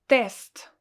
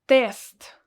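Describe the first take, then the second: Both takes have the same delivery.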